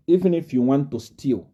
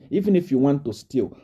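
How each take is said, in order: Both takes have the same delivery.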